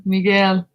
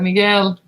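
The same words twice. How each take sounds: First: "Miguel" with a Spanish accent, mee-GEL. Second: Said in the usual way. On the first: Shown as a demonstration. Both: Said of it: "I have to say it with the accent".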